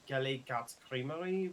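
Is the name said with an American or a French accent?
French. It is said with a French accent.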